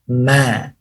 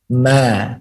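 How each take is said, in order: Both takes have the same delivery.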